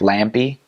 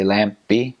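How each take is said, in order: First: The middle consonants run together without a break. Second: A short pause splits the double consonant. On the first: The speaker calls it wrong. "Instead of like" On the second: The speaker calls it right. "you'd say ... you break that up"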